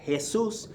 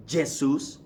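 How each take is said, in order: First: Jesus said "heh-SOOS", higher pitch; Jesus with an h and final stress; Spanish J as H. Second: Jesus said "zheh-SOOS"; Portuguese pronunciation. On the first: Teacher repeating the Spanish name, Jesus as "heh-SOOS". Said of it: "you give it an H sound". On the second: Teacher showing what it's not, Jesus the Portuguese way. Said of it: "That's Portuguese pronunciation". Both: Shown as a demonstration.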